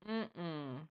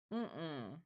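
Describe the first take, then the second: No difference in how they are said.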